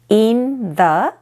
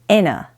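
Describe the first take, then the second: First: The TH sound in the is clearly heard. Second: The TH sound merges into an N sound.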